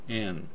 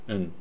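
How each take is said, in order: First: The word is said fully with a clear vowel. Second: The word is reduced to a bare n sound. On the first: "はっきり言うケース" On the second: "うんだけになるかもしれません"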